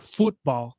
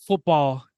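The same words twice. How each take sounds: First: "football" with a longer "oo", like futbol; stretched "football" with a tense first vowel; pronunciation contrast. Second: Said in the usual way. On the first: Shown as a demonstration. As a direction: say "football" slowly as the world says it, "FOOT-bol". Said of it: "not the world sport". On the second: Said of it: "American football, you know, with the pigskin".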